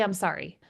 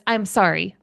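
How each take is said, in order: First: "I'm sorry" said softer, empty and mechanical; no feeling. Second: Said in the usual way. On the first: Shown as a demonstration. Kid told to apologize, saying it with no feeling. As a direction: toss off the apology like rote words. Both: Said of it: "with no feeling".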